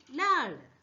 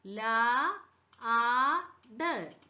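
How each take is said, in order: First: Said in the usual way. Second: "ല, ആട്" very slowly in separate sounds; sounded out. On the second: Shown as a demonstration. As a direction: hold "ല", pause, stretch "ആട്". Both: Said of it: "എൽ എങ്ങനെ pronounce ചെയ്യുന്നത്?".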